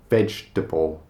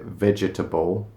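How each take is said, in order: First: It is said with syllables squeezed together. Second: It is said with extra syllables sounded out. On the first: The speaker calls it right. "It's just vegetable" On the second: The speaker calls it wrong. "we don't pronounce it vegetable"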